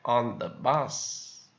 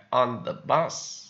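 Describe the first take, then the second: No difference in how they are said.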